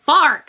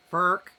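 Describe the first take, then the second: First: "fark" said loud with an ah vowel instead of fork; mispronounced fork. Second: "Fark" said lower with an er-like vowel instead of fork; mispronounced fork. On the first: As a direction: blurt "fark" with an open ar sound, not fork. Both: Shown as a demonstration. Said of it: "That was fork".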